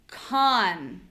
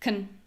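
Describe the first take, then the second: First: The vowel is full, long and high-pitched. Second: The vowel is reduced, short and low-pitched. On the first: "We have a clear vowel, ah. We have a long vowel, and we have a higher voice" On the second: "my voice is low, my vowel is unclear. It's not ah, it's uh"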